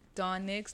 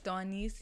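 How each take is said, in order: First: The name ends with a 'ks' sound. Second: The name ends with a plain 's' sound. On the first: The speaker calls it wrong. "don't call her Donix" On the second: The speaker calls it right. "her name was supposed to be pronounced as Dawnice"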